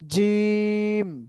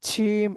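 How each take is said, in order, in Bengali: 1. প্রথম ব্যঞ্জনটি শক্ত ও দৃঢ়। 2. প্রথম ব্যঞ্জনটি নরম, শিসের মতো। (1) "জিম হবে শক্ত।" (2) "সিন ছিম এরকম যেন না হয়।"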